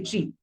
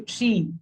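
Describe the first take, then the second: First: "tree" with its ee cut short; wrongly short vowel. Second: "tree" with a long, held ee; long vowel. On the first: Teacher showing how we don't say it, short vowel. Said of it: "We do not use the short one". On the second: Teacher showing how we do say it, long vowel. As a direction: draw out the ee in "tree". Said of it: "we use the longer one". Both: Shown as a demonstration.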